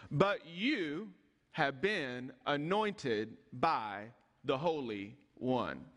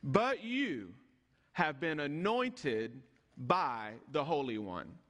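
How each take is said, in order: First: Slow emphatic repeat. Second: Said in the usual way. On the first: Shown as a demonstration. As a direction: lower and very slow, weighing each word.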